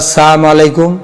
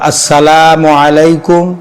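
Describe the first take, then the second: First: The L sound in salamu is dropped. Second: The L sound in salamu is clearly heard. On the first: It wishes death upon the listener. The speaker calls it wrong. "লাম উচ্চারণ হইল না" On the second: It wishes peace upon the listener. The speaker calls it right. "সঠিকভাবে উচ্চারণ করা"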